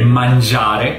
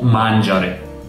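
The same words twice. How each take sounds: First: The stress falls on the usual syllable. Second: The stress falls on a misplaced syllable. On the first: The speaker calls it right. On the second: The speaker calls it wrong. "sbagliato, perché ho messo l'accento nel posto sbagliato"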